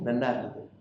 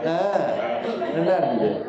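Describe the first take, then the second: First: It is said plainly and sincerely. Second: It is drawn out with a mocking, ironic tone.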